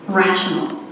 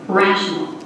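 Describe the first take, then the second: The two takes are said the same way.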